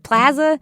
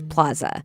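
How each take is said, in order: First: The first vowel is a hard, flat A. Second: The first vowel is an open Spanish A. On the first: This is the local way of saying it. "with that super hard A" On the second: This is the original Spanish way of saying it. "the Spanish pronunciation is plaza"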